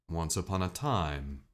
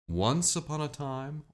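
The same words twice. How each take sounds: First: The emphasis falls at the end of the phrase. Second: The emphasis falls at the beginning of the phrase.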